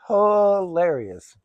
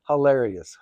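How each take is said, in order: First: "Hilarious" stretched long and higher; high, very slow "Hilarious"; drawn-out emphasis. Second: Said in the usual way. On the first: Real, not acted. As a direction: hold the first syllable of "Hilarious". Second take stretched for emphasis.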